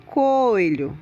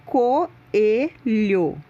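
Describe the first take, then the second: First: "coelho" run together as two syllables, co-lho; "coelho" said wrong, with the o and e merged; wrong pronunciation. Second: "coelho" slow, each vowel apart, co-e-lho; careful three-syllable "coelho"; correct pronunciation. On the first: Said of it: "Não se pronuncia coelho". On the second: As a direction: stretch out "coelho" so o and e are split. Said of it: "se pronuncia coelho". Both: Shown as a demonstration.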